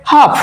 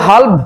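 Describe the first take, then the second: First: হাফ with the l silent; correct pronunciation. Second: হালফ with the l sounded before the f; wrong pronunciation. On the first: Teacher giving the correct form, হাফ with silent l. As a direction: say হাফ, vowel straight into f. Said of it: "উচ্চারিত হবে". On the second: Teacher showing students the mistake, হালফ with a sounded l. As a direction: say হালফ wrongly, pronouncing the silent l. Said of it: "এমন হবে না". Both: Shown as a demonstration.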